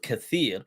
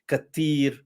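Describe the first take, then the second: First: It has a th sound, standard Arabic style. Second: It has a plain t, Moroccan dialect style.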